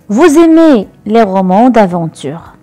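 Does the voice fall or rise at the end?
falls. The voice falls at the end, as a statement.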